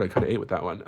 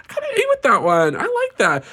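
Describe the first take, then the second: First: Laughing softly. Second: Much higher and louder, delighted with herself; proud squeal. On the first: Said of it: "that was actually kinda good". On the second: Praising her own joke, loud and high. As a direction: crow about her own line. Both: Real, not acted.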